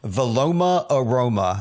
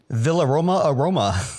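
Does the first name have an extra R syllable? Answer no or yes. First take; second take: no; yes. First: The first name has no extra R syllable. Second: The first name has an extra R syllable. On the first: The speaker calls it right. "I said it correctly that time" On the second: The speaker calls it wrong. "there's no R"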